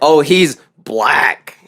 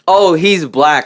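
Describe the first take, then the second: First: It is said with a sneering, contemptuous tone. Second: It is said in a plain, neutral tone.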